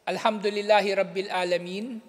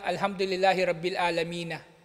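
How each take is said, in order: First: The last word ends without a final vowel. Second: The last word ends with a final 'a' vowel. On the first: "hindi na natin binabasa yung fatha, yung dulo" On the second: "ang dulo niya"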